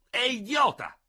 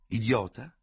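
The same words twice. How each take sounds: First: "idiota" flung out very high and louder, falling hard; outraged outburst. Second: "Idiota" repeated slyly with a questioning rise; mocking echo. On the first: Ferraud calling the situation idiotic, outraged and loud. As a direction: spit out "idiota" in high indignation. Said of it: "con accenti di profonda e sbigottita convinzione". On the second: Dubert echoing his rival's word, sly. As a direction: echo "Idiota" back mock-gravely. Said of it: "con maliziosa gravità". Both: A narrator's reading.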